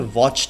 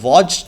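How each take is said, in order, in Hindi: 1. इस शब्द का अंत t साउंड से होता है। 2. इस शब्द का अंत d साउंड से होता है। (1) "एंड में हम टी साउंड लगाते हैं।" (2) "ये वॉच्ड नहीं होता"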